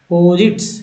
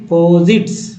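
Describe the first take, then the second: No difference in how they are said.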